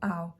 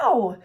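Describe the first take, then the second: First: The pitch stays fairly level on the word. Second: The pitch jumps up high on the word. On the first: The speaker calls it wrong. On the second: The speaker calls it right.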